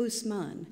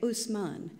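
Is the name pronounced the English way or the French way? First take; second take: French; French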